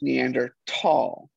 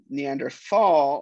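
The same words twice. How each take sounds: First: The last syllable begins with a plain t sound. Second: The last syllable begins with a th sound. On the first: "correctly pronounced Neanderthal, because it is Neander... and Tal is valley in German" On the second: "of course, is how it's spelled"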